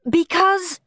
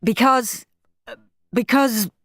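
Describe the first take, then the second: First: Higher, firm falling word; Mum. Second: A hint of a stammering father; Dad. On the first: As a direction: say it like a fed-up mother. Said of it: "said Mum". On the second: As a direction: stumble over it. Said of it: "said Dad". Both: A narrator's reading.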